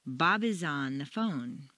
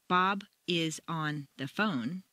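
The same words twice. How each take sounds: First: "Bob is on the phone" flowing smoothly as connected sound groups; linked sound units. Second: "Bob is on the phone" in separate words, slow. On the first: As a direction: run "Bob is on" together, slow and low, no gaps. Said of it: "Sound units make a sentence flow smoothly". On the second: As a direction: keep "Bob", "is", "on", "the phone" apart, unlinked. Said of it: "Native speakers don't say". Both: Shown as a demonstration.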